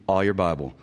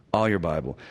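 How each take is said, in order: Both takes have the same delivery.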